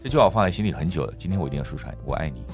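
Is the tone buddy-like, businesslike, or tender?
businesslike. It sounds rational and businesslike.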